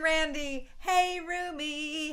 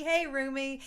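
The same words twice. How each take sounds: First: Slow, high sing-song "hey, Rumi"; a slow, higher, singing "hey, Rumi"; drawn-out greeting. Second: Said in the usual way. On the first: Real, not acted. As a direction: stretch out "hey" like a playful call. Playful greeting, then repeated.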